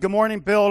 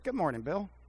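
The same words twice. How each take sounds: First: The greeting sounds angry and grumpy. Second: The greeting sounds warm and friendly. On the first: The speaker is annoyed and wants to be left alone. The speaker calls it wrong. "That projects somebody that's ticked off" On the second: The speaker shows care and goodwill. The speaker calls it right. "You could go to work like this"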